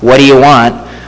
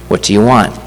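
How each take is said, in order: First: It is said in an irritated, impatient tone. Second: It is said in a gentle, soft tone. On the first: The speaker is annoyed by the request. The speaker calls it wrong. "it's not, what do you want, like I might be tempted to do with my own children" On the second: The speaker sincerely cares about the request. The speaker calls it right. "I am convinced that Jesus speaks that with gentleness and humility"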